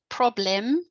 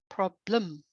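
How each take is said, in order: First: The second vowel is a full, clear vowel. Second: The second vowel is reduced to a schwa. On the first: The speaker calls it wrong. "not problem" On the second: The speaker calls it right. "You just hear uh"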